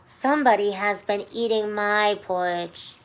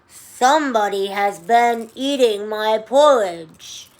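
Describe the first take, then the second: First: It is said in a sweet, low voice. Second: It is said in a loud, growly voice.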